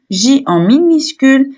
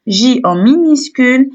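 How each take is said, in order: Both takes have the same delivery.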